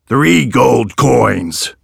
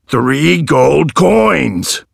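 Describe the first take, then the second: First: Said in the usual way. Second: Very slow, pressing each word; aggressive repeat. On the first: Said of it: "replied the man". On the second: A narrator's reading. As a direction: hammer out three gold coins. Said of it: "repeated the man aggressively".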